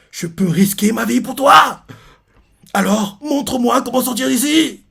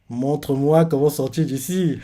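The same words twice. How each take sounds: First: Slow, high, melodramatic plea; mock heroic vow. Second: Sly aside. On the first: Reader parodies the suitor begging the way out, melodramatic. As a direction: ham it up as a devoted lover. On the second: Retold or imitated. Reader reveals the schemer behind the plea, slyly. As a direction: drop the passion, say it slowly. Repeats the line as real intent.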